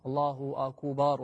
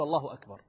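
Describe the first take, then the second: First: "الله أكبر" with a long drawn "أكبار", slowly; drawn-out vowels. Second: Said in the usual way. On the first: Shown as a demonstration. Teacher demonstrates a mistaken takbir, stretching the vowels of "أكبر". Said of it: "قالها بمد الكاف والباء". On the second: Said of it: "بس الصحيح أن يقول".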